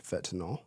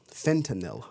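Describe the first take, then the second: First: "fentanyl" said FET-uh-nawl; habitual pronunciation. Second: "Fentanyl" said FEN-tuh-nil; careful FEN-tuh-nil for "Fentanyl"; corrected pronunciation. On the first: Real, not acted. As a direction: drop the first n in "fentanyl" and end it in -nawl. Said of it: "I always say fet". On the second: Shown as a demonstration. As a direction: sound the first n and end "Fentanyl" in -nil. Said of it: "how it's pronounced".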